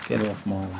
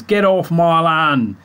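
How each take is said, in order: First: Put-on low, soft Gloucester accent; muttered Gloucester accent. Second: Broad West Country Gloucester voice, slowed; grumpy Gloucester farmer accent. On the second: Retold or imitated. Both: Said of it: "Proper, uh, Gloucester accent speak".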